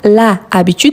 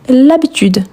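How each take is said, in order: First: The article's vowel is fully pronounced before habitude. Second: The article's vowel is dropped and joined to habitude. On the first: The speaker calls it wrong. "je ne dis pas la habitude" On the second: The speaker calls it right. "mais je dis l'habitude"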